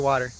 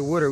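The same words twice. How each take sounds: First: It is said in a general accent. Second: It is said in a Philadelphia accent. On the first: This is how locals do not say it. "we don't say water" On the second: This is how locals say it. "I'm from Philly, we say water"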